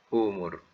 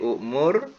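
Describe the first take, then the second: First: The first vowel is a long u. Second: A glottal catch follows the first vowel. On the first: It is how the word must actually be pronounced. The speaker calls it right. "dalam bunyi kena bunyikan umur. Bunyi waw" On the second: It follows the written spelling literally. The speaker calls it wrong. "dalam tulisan alif hamzah mim ra ukmur"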